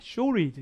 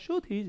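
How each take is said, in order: First: The t after the r is barely pronounced. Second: The r is dropped and the t is pronounced. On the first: "미국 사람들은 알 다음에 t 발음을 잘 안 해요" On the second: "영국 사람들은 알 발음 오히려 안 하니까"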